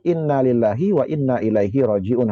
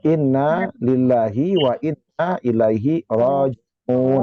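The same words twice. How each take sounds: First: The long vowels are cut short. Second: The long vowels are held at full length. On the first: The speaker calls it wrong. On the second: The speaker calls it right.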